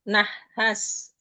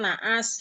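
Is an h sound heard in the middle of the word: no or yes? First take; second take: yes; no. First: An h sound is heard between the vowels. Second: The two vowels run together without h. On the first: This is the Quranic Arabic form. "di Al-Quran nama bunyinya nah nahas" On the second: This is the everyday Indonesian form. "di logat Indonesia kan naas"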